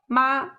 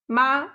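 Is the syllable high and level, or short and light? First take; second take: high level; high level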